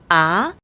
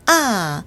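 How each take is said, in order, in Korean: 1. 음이 낮은 데서 높은 데로 빠르게 올라간다. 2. 음이 높은 데서 낮은 데로 확 떨어진다. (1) "낮은 음에서 높은 음으로 단숨에 확 끌어당기듯" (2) "높은 음에서 낮은 음으로 뚝 떨어뜨리듯"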